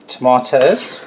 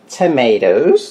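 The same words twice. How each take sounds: First: It is said in a non-American accent. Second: It is said in an American accent.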